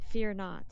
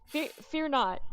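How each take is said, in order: First: Booming angelic proclamation. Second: Loud, holy proclamation; angelic voice. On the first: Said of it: "It's like an angel". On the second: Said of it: "she thinks she's Jesus". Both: Acted. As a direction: speak like a heavenly angel.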